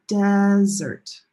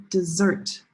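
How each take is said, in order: First: "desert" with a loud, held "DES"; first-syllable stress. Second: "dessert" with weak "de", strong "SSERT"; second-syllable stress. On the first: Teacher explaining first syllable, loud stressed start on "desert". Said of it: "one syllable is longer". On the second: Teacher contrasting two words, second-syllable stress on "dessert". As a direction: hit the last syllable of "dessert". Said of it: "That's a big difference". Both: Shown as a demonstration.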